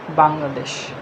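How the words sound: It is said with a Bengali pronunciation. The speaker calls it wrong. "it's the Bengali pronunciation, not the English"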